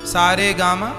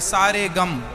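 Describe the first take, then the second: First: Each syllable is said as a separate note. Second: The syllables are run together as two words. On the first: These are musical notes. "ये देखो संगीत हो गया सा रे गा मा" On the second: It means all the sorrows. "अर्थ बदल देते हैं, सारे गम"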